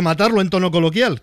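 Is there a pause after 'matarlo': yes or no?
no. There is no pause after matarlo.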